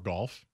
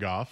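First: The name is said with an L sound. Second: The name is said without an L sound. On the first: The speaker calls it wrong. "He says golf" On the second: The speaker calls it right. "however you'd like to say it"

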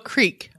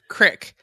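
First: It has a long ee vowel, non-Southern. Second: It has a short i vowel, Southern.

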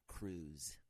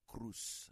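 First: The final consonant is a buzzing Z sound. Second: The final consonant is a hissing S sound. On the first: The speaker calls it wrong. "not Cruz" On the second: The speaker calls it right. "Anything that has a Z in it is an S sound in Spanish. That's why my name is [name]"

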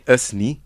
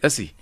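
First: The two words are kept separate. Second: The two words are compressed into one. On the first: "You wouldn't say us ni" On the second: "the words are all compressed. ... you'd say usi"

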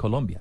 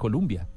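First: The second syllable has a 'u' vowel. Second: The second syllable has an 'o' vowel. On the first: This is how English speakers say the name. "dicen Colombia, porque es parte de la pronunciación" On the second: This is how the name is said in Spanish. "ellos no dicen Colombia"

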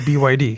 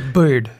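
First: The name is spelled out letter by letter. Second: The name is said as one word. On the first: The speaker calls it right. "you just say BYD" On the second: The speaker calls it wrong. "You don't say bird"

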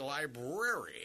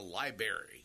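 First: The first r sound is clearly said. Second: The first r sound is dropped. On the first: The speaker calls it right. "make sure you learn to say library" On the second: The speaker calls it wrong. "they're calling it about a library"

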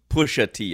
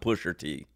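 First: The first word ends without an r sound. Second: The first word ends with an r sound. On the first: The speaker calls it right. "I got to call [name]" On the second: The speaker calls it wrong. "I can't call him [name]"

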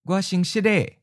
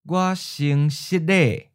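First: It is said at a natural, quick pace. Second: It is said slowly and carefully. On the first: "Once natural speed" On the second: "and then slow"

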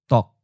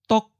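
First: A short, clipped syllable at mid pitch. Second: A short, clipped syllable at high pitch. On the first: "Fourth tone, mid stop" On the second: "Eighth tone, high stop"

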